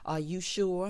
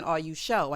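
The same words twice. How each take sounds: First: Said in the usual way. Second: "sure" said as "sho", no r; dialect "sho". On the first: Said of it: "that's how Tyler like to do". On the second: Shown as a demonstration. Quoting the line Tyler's characters used to say, "sure" pronounced "sho". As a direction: drop the r in "sure" and round it to "sho". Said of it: "He stopped her from saying".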